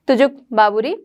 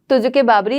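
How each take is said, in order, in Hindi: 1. दोनों शब्दों को कोई स्वर नहीं जोड़ता। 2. दोनों शब्दों को एक अतिरिक्त 'e' स्वर जोड़ता है। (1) "प्रोनाउंस आप इस तरीके से भी कर सकते हैं" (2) "तो तुजुके बाबरी लिखी गई थी"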